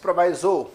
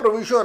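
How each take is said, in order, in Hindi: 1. बीच का स्वर 'eye' जैसा बोला जाता है। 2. बीच का स्वर 'ee' जैसा बोला जाता है। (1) "बहुत सारे लोग इसे प्रोनाउंस करते हैं प्रोवाइजो" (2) "मैं प्रोविजो प्रोनाउंस करता हूं"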